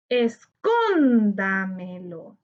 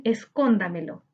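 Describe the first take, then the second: First: "Escóndamelo" slow, with a long, held CÓN; stressed syllable stretched. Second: Said in the usual way. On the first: Shown as a demonstration. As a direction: lean long on CÓN in "Escóndamelo", falling away after. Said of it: "Busquemos la sílaba tónica". ("Escóndamelo" alargando mucho la sílaba tónica CÓN) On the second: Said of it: "Busquemos la sílaba tónica en".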